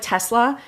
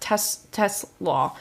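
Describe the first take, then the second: First: The name ends with a short 'sla' sound. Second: The name ends with a 'slaw' sound. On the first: The speaker calls it wrong. "It's not like Tesla" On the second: The speaker calls it right. "you pronounce it coleslaw"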